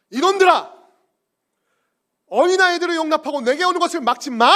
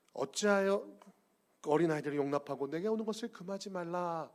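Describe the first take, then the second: First: Loud, high furious shout; angry rebuke. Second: Said in the usual way. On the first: Acted. Jesus scolding the disciples, furious shout. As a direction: bark it at the disciples. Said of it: "라고 화내셨다는 거예요". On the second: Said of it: "이렇게 말씀하신 것이 아니고".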